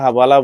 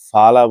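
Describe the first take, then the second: First: The word begins with an hv sound. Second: The word begins with an f sound. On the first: The speaker calls it wrong. "আসলে তারা হাবালা বলে না" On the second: The speaker calls it right. "ফালা বলে। এই এইভাবে বলে ওয়ার্ডটা ফালা।"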